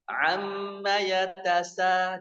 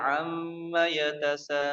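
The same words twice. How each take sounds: First: The 'a' vowel is opened wide and very clearly. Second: The 'a' vowel is soft, calm and subdued. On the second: "Kalau kita biasanya ... kalem ya"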